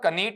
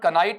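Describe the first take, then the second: First: A k sound starts it, with an ee vowel. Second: A k sound starts it, with an eye vowel. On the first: "कनीट नहीं होगा" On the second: "इसका उच्चारण कनाइट नहीं होगा"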